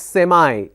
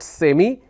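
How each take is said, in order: First: It is said in an American way. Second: It is said in a non-American way. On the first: "it's semi" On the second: "American pronunciation is not semi"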